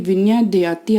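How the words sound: It is run together as one joined word. The speaker calls it wrong. "आप इसको पढ़ते हैं"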